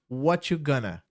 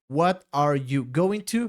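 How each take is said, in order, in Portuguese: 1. As palavras se juntam rapidamente, com alguns sons omitidos. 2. Cada palavra é dita completa e separadamente.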